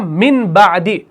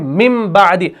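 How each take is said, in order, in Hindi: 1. b से पहले n की आवाज़ आती है। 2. b से पहले m की आवाज़ आती है। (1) "हम इस मिन बादी को हम ऐसे नहीं पढ़ते हैं" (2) "हम पढ़ते हैं मिम बादी"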